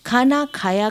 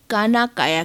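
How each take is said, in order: First: Said in the usual way. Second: "काना काया" with k in place of kh; South Indian pronunciation. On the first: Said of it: "का उच्चारण". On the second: Shown as a demonstration. Lecturer showing how South Indians say खाना खाया, "काना काया" with plain k. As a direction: say "काना काया" with unaspirated k sounds. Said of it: "दक्षिण भारतीय खाना खाया का उच्चारण".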